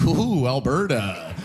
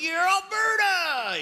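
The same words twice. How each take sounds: First: Slow, lowered, drawn-out dismay; mock-concerned, drawn-out reaction; wary outsider. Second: High, drawn-out mock cheer; hammed-up hometown whoop; cheering insider. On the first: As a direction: imitate an outsider taken aback, stretching the words. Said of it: "when you're outside looking in". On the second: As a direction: cheer it slowly, pitched way up. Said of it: "when you're in Alberta, you're like".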